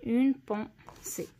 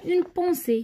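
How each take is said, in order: First: "اون بونسي" slowly, each syllable set apart; slow dictation. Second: Said in the usual way. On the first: Shown as a demonstration. Teacher checking the written word for pupils, slow syllabled "اون بونسي". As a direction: separate "اون", "بون" and "سي" with small gaps.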